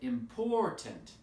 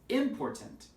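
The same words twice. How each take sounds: First: The stress falls on the second syllable. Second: The stress falls on a different syllable. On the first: The speaker calls it right. "It's the second syllable, right?" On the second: The speaker calls it wrong. "If we change the stress and put it on a different syllable"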